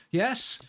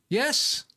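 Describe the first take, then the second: First: A hopeful high Yes?; asking high and eager. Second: Yes? pitched even higher and eager; higher hopeful yes?. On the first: Gamer checking his build works, hopeful high query. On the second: Gamer willing his contraption to work, even higher Yes?. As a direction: push the Yes? up further, pleading. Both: Real, not acted.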